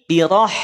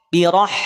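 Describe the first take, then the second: Both takes have the same delivery.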